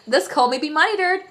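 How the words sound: It is spoken in a cowboy accent. "and the cowboy accent"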